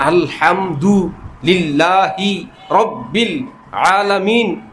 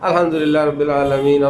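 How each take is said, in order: First: Each sound is crisply and fully articulated. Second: Sounds are slurred with little mouth movement. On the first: The speaker calls it right. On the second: The speaker calls it wrong.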